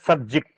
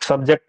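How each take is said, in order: First: It is said in a British English way. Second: It is said in a local Indian English way. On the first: The speaker calls it right. "इसको बोला जाता है" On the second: The speaker calls it wrong. "बिल्कुल सही नहीं बोल रहे हैं"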